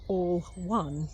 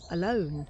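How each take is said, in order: First: The two words are said as separate words. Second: The two words are run together as one word. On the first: Everyone is united as one. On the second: Being by yourself.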